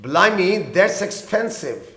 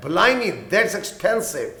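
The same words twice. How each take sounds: First: Very slow, clear teacher's read; slow example line; slow repeat. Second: Very slow, clear teacher's read; slow example line; slow model sentence. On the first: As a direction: repeat each word slowly for learners. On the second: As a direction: drag out each word for learners. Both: Shown as a demonstration. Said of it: "یہ تو بہت مہنگا ہے".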